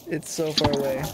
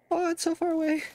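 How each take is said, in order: First: Said in the usual way. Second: High, whining complaint; whiny. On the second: Acted. Player whining at the long trek, high whine.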